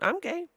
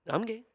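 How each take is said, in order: First: It is said very loudly. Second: It is said at a quieter volume.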